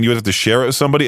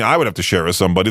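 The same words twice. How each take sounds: First: Said in the usual way. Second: I picked out, the rest quick and lower; quick self-correction with the weight on "I"; stress on I. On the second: Real, not acted. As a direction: lean on "I" to correct yourself, then hurry through. Corrects "you" to himself.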